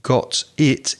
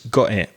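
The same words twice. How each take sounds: First: The two words are said separately with a break. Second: The two words are linked into one smooth unit. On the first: The speaker calls it wrong. "So it's not got it" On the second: The speaker calls it right. "with got and it, it often joins together"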